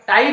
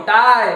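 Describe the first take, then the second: First: ଟାଇ ending in a clear "ee" sound; ଟାଇ with the final vowel pronounced as "i"; wrong pronunciation. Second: ଟାଏ as "tie", loud and held; ringing teacher's model of ଟାଏ, ending "ay"; correct pronunciation. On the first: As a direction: say ଟାଇ as "taa-i". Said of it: "ନୁହଁ". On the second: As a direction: say ଟାଏ with an open "aay" glide, silent E. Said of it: "ଟାଇ ନୁହଁ". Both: Shown as a demonstration.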